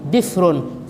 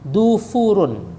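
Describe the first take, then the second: First: An i sound, then no second vowel. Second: Both early vowels are u sounds. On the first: "bikasrin fasukun" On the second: "dua-duanya doma"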